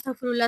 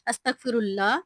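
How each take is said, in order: First: The phrase is said very fast. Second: The phrase is said slowly and carefully. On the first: The speaker calls it wrong. "कुछ लोग ऐसे होते हैं कि वो ना बहुत स्पीड में पढ़ रहे होते हैं" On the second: The speaker calls it right. "आपने आराम-आराम से पढ़ना है"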